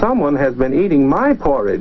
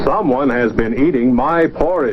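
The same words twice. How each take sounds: First: It is said in a middle-sized voice. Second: It is said in a big, deep voice. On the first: The middle-sized bear is speaking. "in her middle-sized voice" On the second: The biggest bear is speaking. "big voice"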